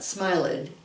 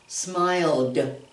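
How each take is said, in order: First: The word does not end in a d sound. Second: The word ends in a d sound. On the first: The speaker calls it wrong. "Not smiled" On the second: The speaker calls it right. "we say smiled, smiled. Put that D on it"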